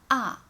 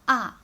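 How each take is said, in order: First: The syllable is said with the fourth tone. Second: The syllable is said with the fourth tone.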